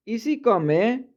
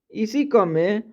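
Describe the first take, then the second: No difference in how they are said.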